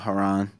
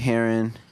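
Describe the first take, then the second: First: The name is said as Haran, not heron. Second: The name sounds like the word heron. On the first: The speaker calls it right. "Haran is perfect" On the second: The speaker calls it wrong. "they be like Hurry Heron"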